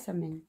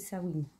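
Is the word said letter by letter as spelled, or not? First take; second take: as spelled; not as spelled. First: The word is sounded out as it is spelled. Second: The word is not sounded out as spelled. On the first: The speaker calls it wrong. "on ne dit pas Samhain" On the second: The speaker calls it right. "On dit Samhain"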